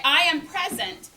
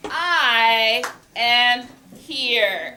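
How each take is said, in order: First: Said in the usual way. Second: I am here drawn out slowly and loudly; slow, loud, deliberate I am here for the class; slow signal phrase. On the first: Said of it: "then you could say". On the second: Shown as a demonstration. Teacher modelling the signal phrase for students, slow and loud. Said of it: "we're gonna say".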